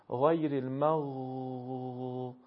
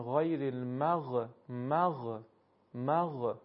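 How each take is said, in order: First: Slow «غیر المغ-» stretched out on a motionless final غ; held silent consonant. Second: Wrong «مغ-» with a vowel puff released after the غ; mispronounced sukun. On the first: Teacher proves the letter stays still, final غ of «المغ-» held long. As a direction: hold the غ of «المغ-» long and steady, no added vowel. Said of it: "این حرف ساکن رو سه ثانیه بکشیم". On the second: Teacher shows students the mistake, «المغ-» with the غ bounced. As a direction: bounce the silent غ in «المغ-» into a short extra vowel. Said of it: "اگر اینجوری تلفظ بشه، این، این تلفظ شما اشتباه هست".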